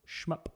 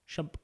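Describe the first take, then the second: First: The m sound comes before the vowel. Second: The m sound comes after the vowel. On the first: The speaker calls it right. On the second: The speaker calls it wrong.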